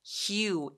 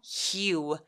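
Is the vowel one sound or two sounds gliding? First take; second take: two sounds; two sounds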